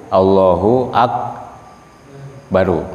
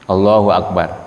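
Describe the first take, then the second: First: The final word ends with an added u vowel. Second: The final word ends on the consonant r. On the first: It follows the rules of Arabic grammar. "Tapi kalau menurut ilmu nahwu" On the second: It follows the rules of Quran recitation. "Ini menurut ilmu tajwid"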